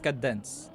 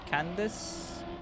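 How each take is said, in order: First: No extra N sound is in the middle. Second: An extra N sound is in the middle. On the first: The speaker calls it right. "it's cadence" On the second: The speaker calls it wrong. "I don't know why I'm putting that N in the middle"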